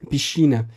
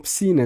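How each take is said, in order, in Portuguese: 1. A consoante antes do c soa como sh. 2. A consoante antes do c soa como s. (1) "como se diz piscina no dialeto lisboeta" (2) "Eles falam piscina"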